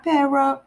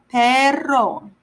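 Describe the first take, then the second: First: Quick "perro", the double R barely tapped; mispronounced R. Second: "perro" with a strongly rolled double R; exaggerated R. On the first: Teacher showing how not to say dog, weak R in "perro". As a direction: say "perro" with a short, untrilled R. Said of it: "not perro". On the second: Teacher correcting how to say dog, rolled R in "perro". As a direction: hit "perro" firmly, trilling the R long. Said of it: "exaggerate the R sound a little bit". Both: Shown as a demonstration.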